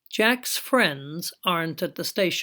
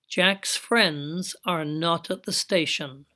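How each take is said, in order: First: The verb and not are joined into a contraction. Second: Every word is said fully and separately.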